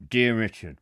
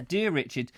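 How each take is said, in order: First: Low mock-thug voice; menacing heavy's voice. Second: Said in the usual way. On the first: Host pretending to read a threatening letter, low heavy's voice. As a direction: greet him like a gangster with a threat. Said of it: "I'll do the proper voice". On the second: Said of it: "hang on, I'll do the proper voice".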